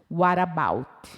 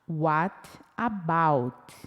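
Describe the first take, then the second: First: The two words are run quickly together. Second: The two words are said slowly and separately. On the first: "olha como eu pronuncio essas duas palavras juntas" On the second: "se eu falo mais pausadamente"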